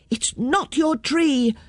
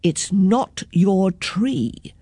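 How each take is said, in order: First: Put-on higher, drawn-out child's retort; children's shout. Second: Slow, deliberate grown-up correction; unhurried adult telling children off; the men's voice. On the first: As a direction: throw it back high, like defiant kids. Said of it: "shouted the children". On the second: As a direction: spell it out slowly and firmly. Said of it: "said the men". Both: A narrator's reading.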